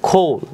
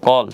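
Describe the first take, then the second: First: The first k sound has a strong breath. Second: The first k sound is plain, without breath. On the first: The speaker calls it right. "এটার শুদ্ধ উচ্চারণ হবে খোল" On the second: The speaker calls it wrong. "আমরা সাধারণত কি বলি কল"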